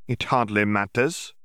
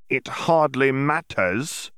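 First: Said in the usual way. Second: Slow, drawn-out It hardly matters with a rise on hardly; repeated dismissively. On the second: Acted. Yaxley repeats himself slowly to brush Riddle off, rising on hardly. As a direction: stretch the word hardly and let it rise. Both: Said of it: "Yaxley repeated".

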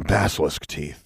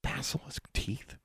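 First: Gruff salesman's pitch; shady dealer. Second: Very soft, slow, higher-pitched question; hushed, uncertain query; hesitant. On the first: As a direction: offer it like a shady trader. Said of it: "He lowered his voice". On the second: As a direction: repeat it hesitantly, barely voiced. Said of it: "Alexandra hesitated". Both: A narrator's reading.

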